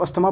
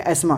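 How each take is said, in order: First: अस्थमा with the TH sounded as a T; wrong reading अस्थमा, audible TH; common misreading. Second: एस्मा as "es-maa", nothing between S and M; corrected एस्मा, TH left silent. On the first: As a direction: say अस्थमा as people misread it, "as-tha-maa". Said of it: "इसको अस्थमा पढ़ते हैं लोग". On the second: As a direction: say एस्मा, dropping the TH entirely. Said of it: "लेकिन ये एस्मा". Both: Shown as a demonstration.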